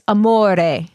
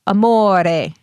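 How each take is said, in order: No difference in how they are said.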